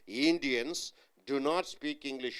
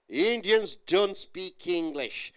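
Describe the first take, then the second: First: The negative is said as two full words. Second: The negative is said as one contracted word. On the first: The speaker calls it wrong. "You don't say do not" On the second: The speaker calls it right. "you say don't"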